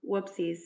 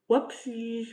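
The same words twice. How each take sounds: First: Said in the usual way. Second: Higher, louder, sing-song "Whoopsies" in a put-on voice; mock whoopsies. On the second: Shown as a demonstration. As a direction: toss off "Whoopsies" like a fake cutesy oops.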